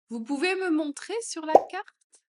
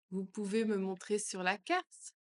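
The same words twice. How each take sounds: First: Much higher and louder ask; high, loud question. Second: Said in the usual way. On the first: Shown as a demonstration. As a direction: lift the whole question up. (plus aigu et plus fort) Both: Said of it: "phrase modelled twice".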